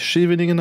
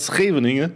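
First: The name begins with a German-style sh sound. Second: The name begins with a Dutch-style s-ch sound. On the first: The speaker calls it wrong. "was nicht Scheveningen heißt" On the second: The speaker calls it right. "sondern Schreveningen"

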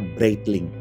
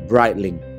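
First: The name is read letter by letter as spelled. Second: The name is said in its original pronunciation. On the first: The speaker calls it wrong. "banyak juga yang masih bacanya" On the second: The speaker calls it right. "cara baca yang benar"

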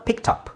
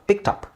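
Both takes have the same delivery.

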